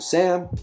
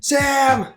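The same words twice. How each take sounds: First: The name is called in a calm, even tone. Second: The name is called angrily with rising emotion.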